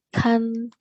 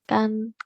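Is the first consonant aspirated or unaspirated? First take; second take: aspirated; unaspirated. First: The first consonant has a strong puff of air. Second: The first consonant has no puff of air. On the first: "ada tekanannya" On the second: "Huruf G dibaca huruf K"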